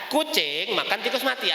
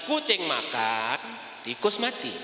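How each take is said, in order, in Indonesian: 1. Diucapkan tanpa jeda antarkata. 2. Ada jeda setelah kata makan. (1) "artinya kucingnya makan tikus yang dalam keadaan sudah mati" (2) "Kucingnya lagi makan, di tempat lain ada tikus dalam keadaan sedang mati"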